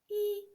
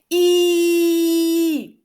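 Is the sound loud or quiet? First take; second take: quiet; loud. First: The vowel is said quietly. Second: The vowel is said loudly. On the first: "А тепер тихенько" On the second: "А тепер давайте разом голосно"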